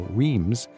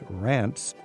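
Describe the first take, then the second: First: It is read straight from the spelling. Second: It is said with a vowel rhyming with France. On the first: The speaker calls it wrong. "The average traveler would look at that and go" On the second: The speaker calls it right. "but it's Reims. It sort of rhymes with France"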